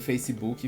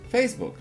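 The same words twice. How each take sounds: First: It is said with a Brazilian Portuguese accent. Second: It is said with an English accent. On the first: The speaker calls it wrong. "não adianta você ficar aí repetindo Facebook" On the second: The speaker calls it right. "tem que aprender sim"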